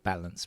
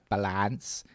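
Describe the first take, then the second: First: It is said with a standard English pronunciation. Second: It is said with a Thai-style pronunciation. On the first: The speaker calls it right. "instead of balance" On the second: The speaker calls it wrong. "There's a Thai way of saying it"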